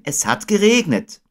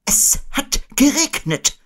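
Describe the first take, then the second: First: Put-on high child character voice; Christopher Robin. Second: Very high, slow owl voice; Eule. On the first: Boy agreeing with Owl, high and straightforward. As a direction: echo it high, at an everyday pace. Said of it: "sagte Christopher Robin". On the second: Owl explaining the long words, very high and slow. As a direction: spell it out high and slowly. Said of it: "erläuterte Eule". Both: A narrator's reading.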